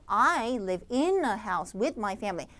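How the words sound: Stress falls on the function words like in, with. The speaker calls it wrong. "내용어에다 주지 않았을 때는요, 여러분들 결국에 뭐 기능어에다 주게 되겠죠?"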